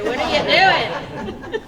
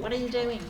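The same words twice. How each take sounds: First: Loud shouted mock question, rising; Ryder impression. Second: Lightly put-on British accent; Sinchi's British accent. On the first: Host imitating Ryder heckling the jumper, loud shout. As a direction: call it out as a mock challenge. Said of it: "needed Ryder there to say". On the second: Host imitating the storyteller's friend, mild British accent. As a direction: say it as a mock-British question. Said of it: "said it in a British accent".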